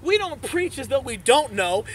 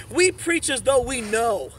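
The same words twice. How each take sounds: First: We don't preach as though we don't know, with "don't" hit and dismissed; louder, measured sermon contrast; stressed contrast. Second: We preach as though we know, slow, with "know" landing firm; slow, loud pulpit declaration; slow emphatic claim. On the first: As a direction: set up the wrong way so the next line lands. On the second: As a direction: plant each word, slowly, with conviction. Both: Shown as a demonstration.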